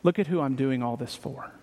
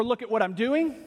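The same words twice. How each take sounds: First: "Look at who I'm doing all this for" said softer and lower, stress on look; quiet sincere boast. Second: Proud "Look at what I'm doing", stress on doing; boasting. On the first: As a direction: turn the boast toward God, hushed. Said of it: "all of a sudden the boast is". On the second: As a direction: brag about your own work. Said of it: "the writer boasting in". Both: Retold or imitated.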